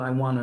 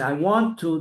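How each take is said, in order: First: The words are slurred together into one. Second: Each word is pronounced clearly and separately. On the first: The speaker calls it wrong. "not I want to do. What's a want to do?" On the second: The speaker calls it right. "You have to say, I want to do this"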